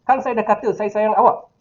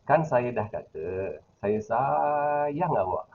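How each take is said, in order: First: High, harsh voice expressing anger. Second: Low, flat, tender voice expressing affection. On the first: The speaker is angry at the listener. "intonasi suara Pak Su tadi tinggi dan keras" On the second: The speaker is telling the listener they love them. "intonasi rendah dan mendatar ataupun uh, mendayu-dayu"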